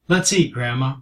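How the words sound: It sounds like a warm, friendly invitation.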